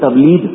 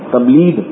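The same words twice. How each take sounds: First: The word ends with a guttural gh sound. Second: The word ends with a d sound. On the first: The speaker calls it right. "وہ تبلیغ کو کہتے تھے" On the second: The speaker calls it wrong. "غین کے بجائے دال نکالتے تھے"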